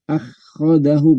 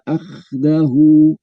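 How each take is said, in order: First: The kh sound is followed by an a vowel. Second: The kh sound has no vowel after it. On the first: The speaker calls it wrong. "bukan akhadahu, bukan" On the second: The speaker calls it right. "khoknya itu disukun aja"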